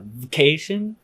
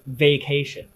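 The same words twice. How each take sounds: First: The first vowel is dropped, giving v'cation. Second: The first vowel is fully pronounced as vay. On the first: "a V apostrophe C" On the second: "really pronounce it vacation"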